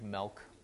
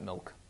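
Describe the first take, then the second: First: It is said in a Wisconsin accent. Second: It is said in a standard accent. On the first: "I drink milk" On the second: "Not milk"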